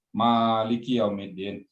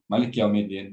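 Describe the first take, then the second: First: The first vowel of Maliki is drawn out long. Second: The first vowel of Maliki is kept short. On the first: The word means owner. "rakaat pertama panjang" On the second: The word means king. "rakaat kedua yeah. pendek"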